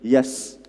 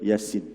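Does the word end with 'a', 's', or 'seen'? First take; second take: s; seen. First: The word ends with a bare 's' consonant. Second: The word ends with the full syllable 'seen'. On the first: The letters are run together as one word. The speaker calls it wrong. "tak boleh baca Yas" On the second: Each letter is read by its full name. The speaker calls it right. "Kena baca Yasin"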